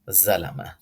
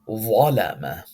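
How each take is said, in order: First: The first consonant is light and thin. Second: The first consonant is heavy and full. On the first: The speaker calls it wrong. "Zalama is incorrect" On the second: The speaker calls it right. "This ظا is heavy"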